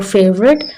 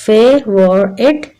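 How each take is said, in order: First: Said in the usual way. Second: फेवरेट slowly in three parts, "fay - vor - et"; slow three-beat फेवरेट; split into syllables. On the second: Shown as a demonstration. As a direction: break फेवरेट into three separate beats. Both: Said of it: "इसमें तीन syllables हैं".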